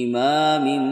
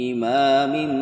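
The two takes are said the same way.

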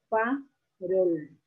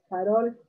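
First: The word is split into separate syllables. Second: The word is said smoothly in one go.

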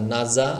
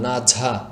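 First: The second consonant is a buzzing 'z' sound. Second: The second consonant is an aspirated 'jh' sound. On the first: The speaker calls it right. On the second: The speaker calls it wrong.

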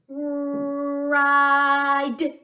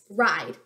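First: The word is stretched out slowly, sound by sound. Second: The word is said quickly as one short unit. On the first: "you're going to say a word slowly without stopping between the sounds" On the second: "Say it fast"

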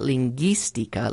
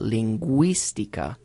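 First: The u after g is silent. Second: The u after g sounds like w. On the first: The speaker calls it wrong. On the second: The speaker calls it right.

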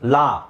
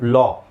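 First: The vowel is a plain open ah. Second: The vowel is a rounded aw sound. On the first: The speaker calls it wrong. "It is not actually ಲಾ" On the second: The speaker calls it right. "It is ಲಾ. So ಆ ಕಾರ ಬರಬೇಕು"

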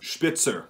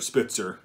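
First: The word has a German pronunciation. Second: The word has an English pronunciation.

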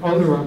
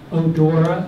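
First: The word sounds like 'odor' with an ending. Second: The word sounds like 'adore' with an ending. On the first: "I pronounce it odora because it's referring to its odor" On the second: "everybody pronounces Daphne odora"

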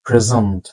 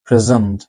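Both takes have the same delivery.

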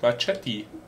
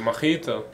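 First: The word is pronounced with English sounds. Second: The word is pronounced with German sounds.

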